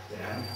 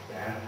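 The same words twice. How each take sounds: Both takes have the same delivery.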